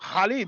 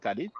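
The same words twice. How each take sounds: First: The name is said with an Arabic throat sound. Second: The name is said with a French pronunciation. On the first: "the Arabic speakers, they pronounce it Khalid" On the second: "In French, we say Khalid"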